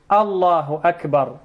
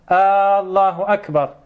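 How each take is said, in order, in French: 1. La première voyelle de Allahu est courte. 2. La première voyelle de Allahu est longue. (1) "Au lieu de dire Allahu Akbar" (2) "يمد الهمزة"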